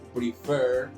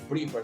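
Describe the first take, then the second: First: The stress is on the second syllable. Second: The stress is on the first syllable. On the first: The speaker calls it right. "el golpe de voz más fuerte lo hago en la segunda E" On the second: The speaker calls it wrong. "no prefer"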